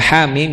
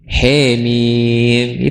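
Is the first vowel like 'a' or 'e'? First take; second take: a; e. First: The first vowel is an open 'a'. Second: The first vowel is a fronted 'e'. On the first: "Baca Hamim" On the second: "jadi Hemim"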